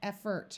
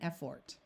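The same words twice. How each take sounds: First: The second syllable's vowel is muffled and reduced. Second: The second syllable has a clear 'or' sound. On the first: "it will become muffled and sound more like effort" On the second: "rather than effort"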